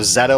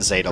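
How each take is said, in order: First: The first vowel sounds like the one in 'met'. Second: The first vowel sounds like the one in 'bait'. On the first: The speaker calls it right. "Zeta like meta" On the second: The speaker calls it wrong. "not Zeta like beta"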